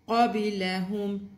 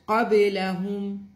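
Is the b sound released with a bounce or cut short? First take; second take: bounce; bounce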